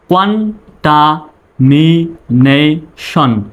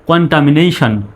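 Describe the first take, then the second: First: contamination very slowly, syllable by syllable; broken into syllables. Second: Said in the usual way. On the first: Shown as a demonstration. Teacher speaking for learners to repeat, contamination in slow syllables. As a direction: drill contamination with pauses between syllables. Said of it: "আমার পরে আপনি বলবেন". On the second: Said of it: "তারপরে একসঙ্গে বলবেন".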